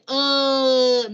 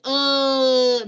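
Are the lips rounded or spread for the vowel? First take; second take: spread; spread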